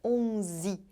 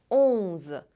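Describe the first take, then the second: First: The word ends with an added 'ee' vowel. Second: The word ends with a plain z sound. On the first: The speaker calls it wrong. "não é para fazer som de i no final, não é onze" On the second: The speaker calls it right. "é para fazer som de z"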